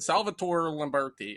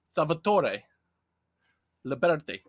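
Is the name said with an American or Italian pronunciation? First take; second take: American; Italian. First: The name is said with American pronunciation. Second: The name is said with Italian pronunciation. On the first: The speaker calls it wrong. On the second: The speaker calls it right. "So it's"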